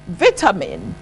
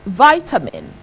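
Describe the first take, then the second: First: It is said with a British pronunciation. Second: It is said with an American pronunciation.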